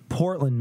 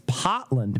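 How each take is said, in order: First: The R sound is pronounced. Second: The R sound is dropped. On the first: "It's not Portland" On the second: "they don't pronounce R's"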